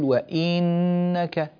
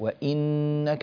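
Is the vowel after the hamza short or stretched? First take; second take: stretched; short. First: The vowel after the hamza is drawn out long. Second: The vowel after the hamza is kept short. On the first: The speaker calls it wrong. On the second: The speaker calls it right.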